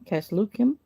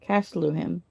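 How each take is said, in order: First: The middle consonant is a hard K sound. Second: The middle consonant is a soft H sound. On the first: The speaker calls it right. "that's H is a K sound. So it'd be Caslukim" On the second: The speaker calls it wrong.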